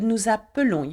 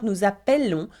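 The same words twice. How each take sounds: First: The middle vowel is a weak, reduced 'uh'. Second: The middle vowel is a full open 'eh'. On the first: The speaker calls it right. "but nous appelons. You keep one L" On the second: The speaker calls it wrong. "it's not"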